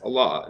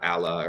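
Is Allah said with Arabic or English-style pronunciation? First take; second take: Arabic; English. First: The word is said with Arabic sounds. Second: The word is said with English sounds. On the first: The speaker calls it right. "somebody who's going to pronounce Allah as Allah" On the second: The speaker calls it wrong. "not Allah"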